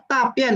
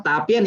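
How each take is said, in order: First: "tapien" with mistaken Mandarin tones, pitched unlike the word for presentation; intonasi yang salah. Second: "tapien" with the correct Mandarin tones for presentation; intonasi yang betul. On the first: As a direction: demonstrate the wrong-tone slip on "tapien". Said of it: "dengan intonasi yang salah". (lafal "tapien" dengan nada keliru) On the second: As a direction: model "tapien" in its proper tones, as a teacher would. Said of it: "itu yang betul presentasi". (lafal "tapien" bernada benar, artinya presentasi) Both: Shown as a demonstration.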